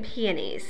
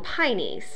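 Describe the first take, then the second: First: The word is said with three syllables. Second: The word is said with two syllables. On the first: This is the pronunciation the speaker grew up with. "But to me, it's always been peonies" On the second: This is the local southern Indiana pronunciation. "People here in southern Indiana call them pineys"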